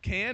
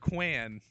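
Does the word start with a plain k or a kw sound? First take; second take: plain k; kw. First: The word starts with a plain k sound. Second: The word starts with a kw sound. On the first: "would it be pronounced can or quan?" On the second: "would it be pronounced can or quan?"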